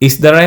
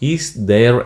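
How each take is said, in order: First: The words are run together into one short word. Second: The words are said fully and separately.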